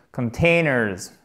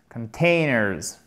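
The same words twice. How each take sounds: The two takes are said the same way.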